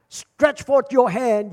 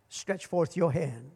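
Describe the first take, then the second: First: Loud, slow, drawn-out command; ringing preacher's command, word by word; bold proclamation. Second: Low, soft and slow, a gentle order; softly spoken stretch forth your hand; quiet command. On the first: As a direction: declare it slowly to the whole church. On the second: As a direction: speak the command hushed and unhurried. Jesus commands the withered hand. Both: Acted.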